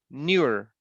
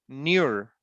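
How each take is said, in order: The two takes are said the same way.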